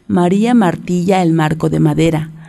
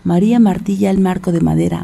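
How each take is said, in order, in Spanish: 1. Se dice a un ritmo normal y fácil. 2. Se dice muy rápido, a gran velocidad.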